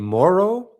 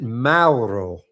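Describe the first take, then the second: First: The first vowel is a plain 'oh' sound. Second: The first vowel glides like 'ow' in 'cow'. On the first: This would be the Italian reading of the name. "like sort of like M O R R O W, pronounced that way" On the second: This would be the Spanish reading of the name. "would be the Spanish pronunciation"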